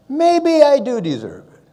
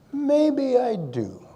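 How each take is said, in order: First: Louder, higher, insisting he earned it; emphatic self-assurance. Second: Drawn out very slowly, musing to himself; slow wondering echo. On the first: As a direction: declare it with mock pride. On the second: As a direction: let it sink in, slowly. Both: Retold or imitated. His reply at the medal ceremony.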